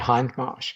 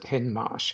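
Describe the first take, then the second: First: The name is said in the British way. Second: The name is said in the American way. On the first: "Brits and Australians automatically say Hindmarsh" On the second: "Americans pronounce it Hindmarsh"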